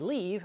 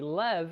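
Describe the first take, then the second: First: The syllable has a long 'ee' vowel. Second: The syllable has a short 'e' vowel. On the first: "I don't say leave" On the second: "I say Lev because Levinson"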